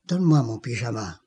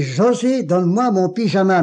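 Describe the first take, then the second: First: Voix basse et rapide, plus grave; tout bas. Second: José lancé plus haut, plus appuyé; voix plus forte. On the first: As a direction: chuchoter presque sa demande. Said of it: "tout bas". (demande à voix basse à l'infirmière) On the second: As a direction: insister en haussant le ton. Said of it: "mais d'une voix plus forte". (appel plus fort à l'infirmière) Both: Retold or imitated.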